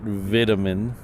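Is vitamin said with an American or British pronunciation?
British. It is said with a British pronunciation. The speaker calls it wrong. "Not vitamin"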